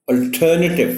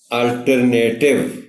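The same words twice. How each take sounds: First: alternative with a strong ter and a short weak ending; teacher giving the right alternative with stress on ter; correct stress on ter. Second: alternative said slowly as al-ter-nay-tiv with a long nay; alternative said slowly in the common wrong way; wrong pronunciation. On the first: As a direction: hit the ter in alternative and keep the rest light. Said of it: "اس پر stress ہے". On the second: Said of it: "غلط کیسے پڑھا جاتا ہے". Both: Shown as a demonstration.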